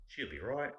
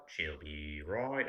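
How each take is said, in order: First: Put-on quick "She'll be right" in an Aussie accent, pitched high and rising; Australian phrase practice. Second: Very slow, drawn-out Aussie "She'll be right"; Australian phrase practice. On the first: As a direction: try out the Australian line brisk and high. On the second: Retold or imitated. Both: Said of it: "say it in different ways".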